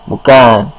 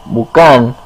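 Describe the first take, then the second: Both takes have the same delivery.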